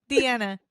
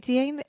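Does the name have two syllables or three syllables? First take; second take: three syllables; two syllables. First: The name is said with three syllables. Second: The name is said with two syllables. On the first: The speaker calls it right. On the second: The speaker calls it wrong.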